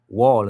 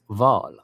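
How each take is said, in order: First: The word begins with a W sound. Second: The word begins with a V sound.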